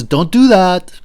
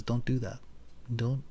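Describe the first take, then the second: First: A sudden loud warning, stopping him short; the conscience shouts the order; loud inner voice. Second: Quiet inner voice. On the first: Inner voice warns Socrates off, loud. A voice that says. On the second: Conscience cautions him quietly, much softer. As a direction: murmur it like a conscience inside you. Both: Pretend.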